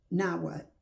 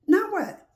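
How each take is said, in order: First: Said in the usual way. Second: Pitched way up and louder, demanding; loud high challenge. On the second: Shown as a demonstration. Preacher challenging the angry listener, loud and high. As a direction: fling the question at them. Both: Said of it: "repeats the question twice".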